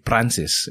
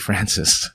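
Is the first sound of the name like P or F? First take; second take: P; F. First: The name begins with a P sound. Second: The name begins with an F sound.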